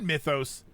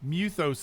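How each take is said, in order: First: The first vowel sounds like 'my'. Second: The first vowel sounds like 'moo'. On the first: "it said Mythos" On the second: "the way he pronounced it, it was like Muthos"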